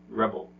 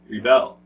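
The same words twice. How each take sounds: First: The stress is on the first syllable. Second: The stress is on the second syllable. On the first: It is a noun. "nouns, the first syllable is usually stressed" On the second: It is a verb. "Verbs, the second syllable is usually stressed"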